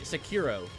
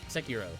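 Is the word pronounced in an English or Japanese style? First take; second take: English; Japanese. First: It is said with an English-style pronunciation. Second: It is said with a Japanese-style pronunciation. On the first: "most people say" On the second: "I say it how how you how like the Japanese is like"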